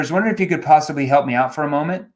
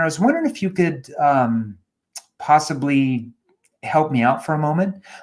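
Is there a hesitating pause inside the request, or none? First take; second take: none; pause. First: The request runs straight through without any pause. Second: A hesitant um pause breaks up the request. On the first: It prompts an automatic knee-jerk reaction. The speaker calls it wrong. "It's a knee-jerk question" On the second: It draws the listener in and makes them pay attention. The speaker calls it right. "But if I say"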